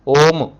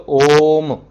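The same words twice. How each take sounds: First: ओम said quickly with a normal-length ओ; short om. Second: ओम with the ओ held three times as long; prolonged om. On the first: Teacher showing students the incorrect short ओम, clipped. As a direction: clip ओम short, the wrong way. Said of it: "एक बार में आप ओम ऐसा नहीं बोलोगे". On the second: Teacher showing students how pluta ओम is chanted, drawn out. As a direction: draw out the ओ of ओम, then close on म. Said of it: "आपको ओ कब तक बोलना है?". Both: Shown as a demonstration.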